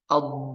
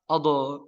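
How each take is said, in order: First: The final consonant is held briefly without bouncing. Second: The final consonant is released with a bouncing echo. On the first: The speaker calls it right. "Tapi ditahan sebentar atau dikasih kesempatan" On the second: The speaker calls it wrong. "Gimana di qalqalah? Ado. Nah, itu tidak boleh"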